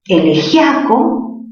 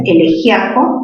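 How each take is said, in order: First: Elegiaco with gia as one stressed syllable; diphthong ia. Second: Elegiaco with stressed i split from the a. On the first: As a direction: say elegiaco slowly as e-le-JYA-co. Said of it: "hay un diptongo". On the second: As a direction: break elegiaco as e-le-JÍ-a-co. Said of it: "tildación disolvente". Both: Shown as a demonstration.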